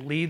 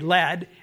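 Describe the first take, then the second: First: The vowel is long, like in 'need'. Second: The vowel is short, like in 'bed'. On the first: It is a verb meaning to guide. "LEAD can be pronounced as lead, and it's a verb" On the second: It is a noun naming a heavy metal. "LEAD could be pronounced differently, lead, and then it's a noun"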